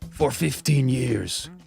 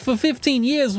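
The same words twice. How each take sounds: First: It is spoken in a Japanese-sounding accent. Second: It is spoken in a New York accent. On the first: "that was a pretty bad impression of a Japanese rat from New York" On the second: "Rat from New York accent"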